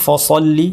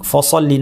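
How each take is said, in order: First: The first syllable has a heavy, dark vowel. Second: The first syllable has a heavy, dark vowel.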